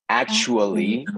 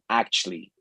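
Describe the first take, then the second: First: The word is said slowly with all syllables. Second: The word is squeezed into two syllables. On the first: "que es mucho más larga" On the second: "solamente dos sílabas"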